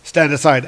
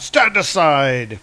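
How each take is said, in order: First: Said in the usual way. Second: Slow, stretched-out mock shout. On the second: Balder bursting into the throne room, mock shout. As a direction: shout it grandly, drawing out the words. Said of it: "shouting out".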